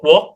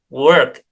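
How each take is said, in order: First: The vowel is a rounded o sound. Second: The vowel is an unrounded er sound. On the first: The speaker calls it wrong. "tidak dipronounce o" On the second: The speaker calls it right. "tetapi e ya"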